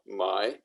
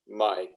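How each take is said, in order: First: The pitch rises from low to high. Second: The pitch stays low.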